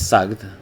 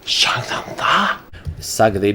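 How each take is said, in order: First: The final vowel is dropped. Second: The word ends with its final vowel. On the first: "Sagri becomes Sagd" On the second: "Sagri becomes Sagd"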